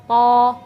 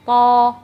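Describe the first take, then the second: Both takes have the same delivery.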